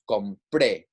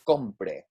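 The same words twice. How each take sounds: First: The stress is on the last syllable. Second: The stress is on the first syllable. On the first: It is the past tense form. "we're putting that stress on the last syllable here" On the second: It is the subjunctive form. "here in the subjunctive tense for our A R verbs, for the yo form, it would be compre"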